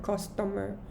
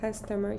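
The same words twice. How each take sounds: First: It is said in a thick non-native accent. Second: It is said in a neutral native-like accent. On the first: The speaker calls it wrong. "she said customer" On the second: The speaker calls it right. "Instead of saying customer"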